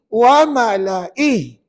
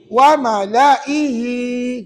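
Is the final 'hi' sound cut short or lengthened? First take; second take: cut short; lengthened. First: The word ends short, with no lengthened final vowel. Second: The final 'hi' vowel is drawn out long. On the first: The reciter stops at this word. "kalau wakaf bacaan begini" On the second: The reciter carries on into the next words. "kalau sambung"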